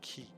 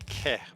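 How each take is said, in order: First: The vowel sounds like 'ee' in 'see'. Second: The vowel sounds like 'eh' in 'bed'. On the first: The speaker calls it wrong. "but for some reason I say ki" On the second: The speaker calls it right. "which should be ke"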